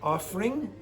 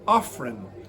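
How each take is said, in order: First: The word ends with an ng sound. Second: The word ends with a plain n sound. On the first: "Coco did not say offering" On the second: "she said offering"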